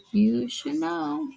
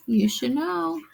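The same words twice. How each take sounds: First: You should know slowly drawn out, ending on a stretched "know". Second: Said in the usual way. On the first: Shown as a demonstration.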